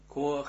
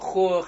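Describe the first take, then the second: First: The word begins with a hard k sound. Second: The word begins with a breathy kh sound. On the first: The word stands in its basic form. "Правильно сказать «кох»" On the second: The word follows a word ending in a vowel. "оглушаем это первую букву «каф» и делаем из нее «хаф»"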